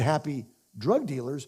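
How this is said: There is a pause after happy.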